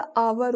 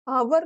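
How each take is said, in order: First: आवर said correctly, with a silent h; correct pronunciation. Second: आवर said the wrong way, with a sounded h; wrong pronunciation. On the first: Teacher gives students the correct silent-h आवर. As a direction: say आवर the right way, no h. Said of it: "वैसा आवर होता". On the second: Teacher shows students the mistake, a sounded-h आवर. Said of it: "आवर नहीं होता". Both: Shown as a demonstration.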